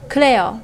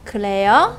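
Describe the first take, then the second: First: The pitch falls at the end. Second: The pitch rises at the end. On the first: It is an affirmation: yes, that's right. "那降调呢？是啊" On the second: It is a question: really? "如果你用声调读的时候，就是一个问句"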